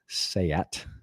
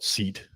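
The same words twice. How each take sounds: First: It does not sound like the word seat. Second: It sounds like the English word seat. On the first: This is how the British say it. The speaker calls it right. "they call it Seat" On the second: This is the guess of someone unfamiliar with the name. The speaker calls it wrong. "I would call it seat"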